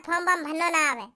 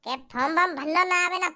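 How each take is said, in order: First: Sneering echo of the excuse; a brother mocks once more; mocking. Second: Mock the brother's whiny excuse, lower; sneering parrot of form warm भरना ना आवे ना; a scoffing brother mimics the excuse. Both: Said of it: "अबे चूतिया".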